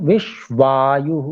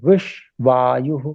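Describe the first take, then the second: The two takes are said the same way.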